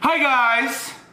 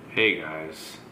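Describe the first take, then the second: First: The greeting is said loudly. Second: The greeting is said at medium volume.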